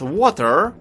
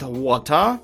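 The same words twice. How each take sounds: First: It is said with an American accent. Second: It is said with a posh British accent.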